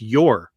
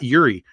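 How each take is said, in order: First: The surname ends in an 'r' sound. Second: The surname ends in an 'ee' vowel. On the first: The speaker calls it right. "It's Yor" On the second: The speaker calls it wrong. "It's not Yuri. I've always pronounced it Yuri"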